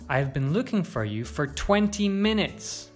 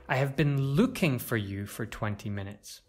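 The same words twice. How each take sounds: First: The stress is on twenty minutes. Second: The stress is on the word looking. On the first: The length of time matters most. "You could also stress twenty minutes" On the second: The action itself matters most. "To stress looking"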